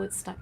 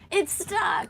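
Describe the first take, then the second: First: It is said quietly and calmly. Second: It is said loudly with a raised voice. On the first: Talking through headsets lets the crew stay relaxed. The speaker calls it right. "Everything stays calm" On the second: Without headsets the crew must yell across the boat. The speaker calls it wrong. "you don't have to raise your voice"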